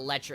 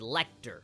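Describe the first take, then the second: First: The middle consonant sounds like 'ch'. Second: The middle consonants sound like 'k' then 't'. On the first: The speaker calls it wrong. "I know that it's not Letcher" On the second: The speaker calls it right. "it's Lecter"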